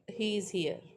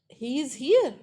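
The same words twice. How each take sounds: First: The pitch falls at the end. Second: The pitch rises at the end. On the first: It is a statement. "falling intonation, he is here. That's a statement" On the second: It is a question. "that turns into a question"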